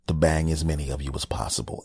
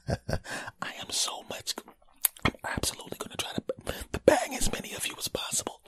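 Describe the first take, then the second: First: Said in the usual way. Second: Hushed, voiceless confession; mock intimate whisper. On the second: Host whispering a joke promise to fans, mock intimate whisper.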